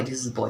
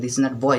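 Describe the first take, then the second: First: Put-on boy said slowly with a full oy glide, boy; right boy. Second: Put-on boy said flat and clipped, the wrong way. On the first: Teacher showing students the right way to say boy. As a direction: draw out boy slowly with a clear oy. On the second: Teacher showing students the wrong way to say boy. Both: Shown as a demonstration. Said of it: "इसका right pronunciation होता है बॉय".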